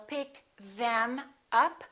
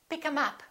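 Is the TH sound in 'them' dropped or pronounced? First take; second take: pronounced; dropped. First: The TH at the start of them is pronounced. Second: The TH at the start of them is dropped. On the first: The speaker calls it wrong. "we don't say" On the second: The speaker calls it right. "We drop this T H and we say"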